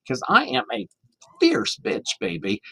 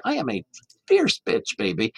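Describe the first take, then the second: First: High, sassy drag queen voice with FIERCE shot up high. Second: Sassy drag queen. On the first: Retold or imitated. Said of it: "finally she said". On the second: Shown as a demonstration. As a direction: snap your fingers and own it like a drag queen. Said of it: "you've gotta snap and say".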